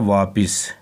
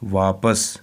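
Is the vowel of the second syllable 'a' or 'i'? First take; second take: i; a. First: The second syllable has an 'i' vowel. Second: The second syllable has an 'a' vowel. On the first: The speaker calls it wrong. "ज़्यादातर बच्चे पढ़ते हैं वापिस" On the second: The speaker calls it right. "ये वापिस नहीं है बल्कि पे के ऊपर है ज़बर"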